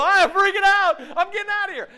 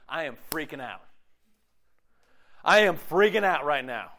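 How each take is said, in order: First: High, loud mock-panicked yell; acted panic. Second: Said in the usual way. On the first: Preacher acting someone inside a burning house, panicked yell. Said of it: "if your house is on fire and you're in it". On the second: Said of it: "This is what I hear often with campus students".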